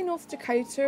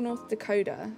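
First: "Dakota" with a clear T; crisp T pronunciation. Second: "Dakota" with the T softened to a D; softened T pronunciation. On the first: Streamer asking chat how to say it, clear T in "Dakota". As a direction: say "Dakota" with a hard T, as in "toe". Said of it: "Do you say North Dakota or". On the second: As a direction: say "Dakota" so it ends like "coda". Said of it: "Is it pronounced more Dakota?". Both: Shown as a demonstration.

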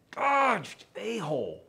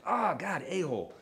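First: Sudden high yelp of pain, then a-hole falls; startled yelp of pain, God jumps high; pained outburst. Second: Imitating a pained yelp, Oh God raised; pained outburst. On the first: Retold or imitated. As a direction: cry out God as the cat scratches. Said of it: "because of the way that I said it". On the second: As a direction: yelp as if scratched again. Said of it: "I said".

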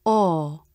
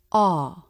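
First: "ah" rounded toward "oh", as in core; AH before R. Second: "ah" as an open vowel, no R colouring; pure AH. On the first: Teacher showing the changed sound before R, "ah" closer and more rounded. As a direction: round the lips more on "ah", tongue back and up. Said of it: "the sound is". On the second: Teacher contrasting the vowel with its R version, pure open "ah". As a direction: say "ah" with dropped jaw, lips only slightly flared. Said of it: "Instead of". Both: Shown as a demonstration.

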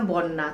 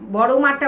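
First: "বন্যা" in place of বড় মা, run together with a double n; childhood mispronunciation. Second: Said in the usual way. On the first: Retold or imitated. (ছোটবেলার ভুল উচ্চারণে "বন্যা") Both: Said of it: "উচ্চারণ করতে পারতাম না".

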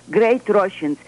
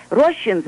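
First: Great said with a firm, falling emphasis; stress on great. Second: Said in the usual way. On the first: Shown as a demonstration. Author to radio host, stressing great. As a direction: lean on the word great before Russians. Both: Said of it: "I emphasize word great Russians".

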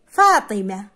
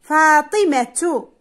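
First: فاطمة lower, ending in h without -tu; final ta dropped. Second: فاطمة drawn out with a full -tu ending; final ta sounded. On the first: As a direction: say فاطمة as faatimah. (نطق فاطمة بحذف التاء: فاطمه) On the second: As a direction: say فاطمة slowly as faatimatu. (نطق فاطمة ببطء مع التاء: فاطمةُ) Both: Shown as a demonstration. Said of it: "عندما أقول فاطمة".

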